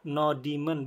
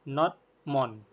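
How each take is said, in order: First: It is said as 'no' plus 'demon'. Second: It is said as 'node' plus 'mon'. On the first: The speaker calls it wrong. "cara bacanya bukan demon ya, no demon bukan ya" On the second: The speaker calls it right. "tapi not mon"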